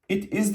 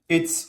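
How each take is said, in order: First: Both words are said fully and separately. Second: The words merge into one short syllable. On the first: "It is diyebilirim" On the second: "It's olur kısaltırsam"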